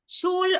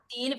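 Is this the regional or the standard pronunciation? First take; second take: standard; regional. First: It uses the standard Yiddish vowel. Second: It uses the regional variant's changed vowel. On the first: "Shul es el Yiddish estándar" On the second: "lo que más comúnmente se dice Shil... lo que hace es cambiar la vocal"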